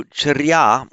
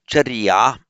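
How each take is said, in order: First: Charya with r and y joined, loud and high; Sanskrit pronunciation. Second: Charya as cha-ri-ya, loud and high; Pali pronunciation. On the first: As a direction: say charya slowly as char-YA. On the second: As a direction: say charya with an i before ya. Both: Shown as a demonstration. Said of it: "in Pali".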